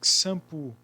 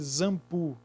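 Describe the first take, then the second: First: The word begins with a ks sound. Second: The word begins with a z sound. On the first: "Shampoo tem som de K S, o X? Não. Senão seria shampoo" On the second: "Tem som de Z? Não, porque seria zampu"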